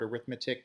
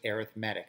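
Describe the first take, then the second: First: It is pronounced like the noun form. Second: It is pronounced like the adjective form. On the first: It names the branch of mathematics. "It looks like the word arithmetic" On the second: It describes a kind of sequence. "because we're using it as an adjective, we pronounce it arithmetic"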